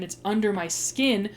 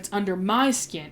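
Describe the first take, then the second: First: The word 'my' is not stressed. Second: The word 'my' is stressed. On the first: The feeling is a hurt that cannot be removed. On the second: The speaker is the one most affected.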